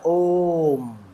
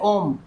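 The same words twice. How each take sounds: First: The o vowel is drawn out very long. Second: The o vowel is short and normal. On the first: "ये जो ओ के बाद ये जो ये जो मात्रा लंबी खिंची है" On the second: "आप इसको पढ़ेंगे तो इसको बोलेंगे ओम"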